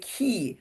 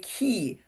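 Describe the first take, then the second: First: The word rhymes with see. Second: The same.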